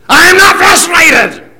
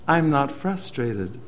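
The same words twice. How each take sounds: First: It is said in an agitated, frustrated tone. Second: It is said in a calm, relaxed tone. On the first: The speaker actually is frustrated despite the words. "did the sound communicate something different than the words?" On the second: The speaker really is not frustrated. "it was pretty easy to tell that he wasn't"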